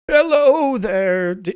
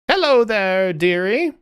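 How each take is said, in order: First: The voice does not sound jovial. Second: The voice sounds jovial and cheerful.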